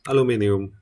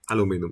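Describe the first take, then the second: First: It is said with five syllables, British style. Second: It is said with four syllables, American style. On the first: "the usual aluminium" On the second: "because it's U S"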